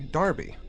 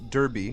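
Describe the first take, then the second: First: The first vowel sounds like 'ar' in 'car'. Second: The first vowel sounds like 'er' in 'her'. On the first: "in the U K they pronounce Derby Darby" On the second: "I'm pronouncing it Derby because that's how I would have pronounced it"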